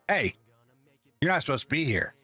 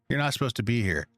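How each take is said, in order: First: It is said in an aggressive tone. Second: It is said in a neutral tone.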